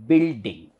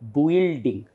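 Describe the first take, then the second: First: No separate u vowel is heard after the b. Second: A separate u vowel is heard after the b. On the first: The speaker calls it right. "It is just B here, consonant, E, L, D, E, and ng sound. So it becomes building" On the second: The speaker calls it wrong. "you may be tempted to pronounce it as building, but it is not building"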